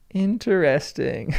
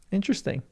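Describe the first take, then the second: First: "Interesting" stretched slowly over every syllable; drawn-out repeat. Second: Said in the usual way. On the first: Pretend. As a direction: draw out "Interesting" as in-ter-est-ing. Stretched, mock-pondering repeat.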